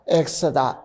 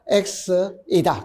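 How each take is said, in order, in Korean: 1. 가운데 음절이 빠집니다. 줄어든 형태입니다. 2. 가운데 음절을 온전히 발음합니다. 원래 형태입니다. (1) "수업을 할 때는 이렇게 이걸 줄여버리지" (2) "X다라는 게 시작. X이다"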